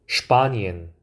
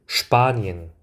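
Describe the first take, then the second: No difference in how they are said.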